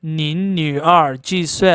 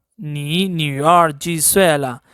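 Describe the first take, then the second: First: Teacher's demo opening on 你 as "nin", with a final n; pronounced with nin. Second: Slow teacher's demo opening on 你 as "ni", no final n; pronounced with ni. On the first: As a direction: close 你 with an n, like "neen". (你 کی جگہ "نِن" کا تلفظ، آخر میں نون) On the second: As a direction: say 你 as an open "nee", slowly. (你 کو "نی" کہہ کر، آہستہ تلفظ) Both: Shown as a demonstration. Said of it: "first pronounce it with ni".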